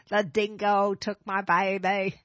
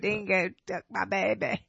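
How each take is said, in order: First: Slow Australian accent, lines stretched; drawn-out Australian accent on demand. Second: Put-on light Australian accent, low; a passing try at Australian. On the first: Shown as a demonstration. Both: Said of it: "let me hear your Australian accent".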